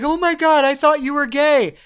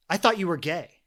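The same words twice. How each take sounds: First: High, loud imitation of a mocking woman. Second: Said in the usual way. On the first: Woman mocking a young man before her friends, loud and high. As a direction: jeer it loudly for the friends to hear. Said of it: "straight up mocking this guy". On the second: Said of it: "she starts laughing at him".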